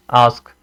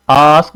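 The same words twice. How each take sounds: First: आस्क said short and lower; quick, unstretched आस्क; short vowel. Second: आस्क with a long drawn-out आ; stretched vowel on आस्क; wrongly stretched. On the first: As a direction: keep the आ in आस्क brief. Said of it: "हम short पढ़ते हैं". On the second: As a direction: prolong the opening vowel of आस्क. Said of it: "इसको आस्क नहीं". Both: Shown as a demonstration.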